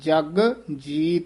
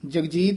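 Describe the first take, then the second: First: The two words are said separately. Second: The two words run together as one. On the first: The speaker calls it right. "ਵੱਖਰਾ ਵੱਖਰਾ ਬੋਲਣਾ ਹੈ" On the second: The speaker calls it wrong. "ਨਹੀਂ ਕਹਿਣਾ ਹੈ"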